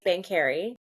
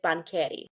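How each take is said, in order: First: The name is said the Canadian way. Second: The name is said the Italian way.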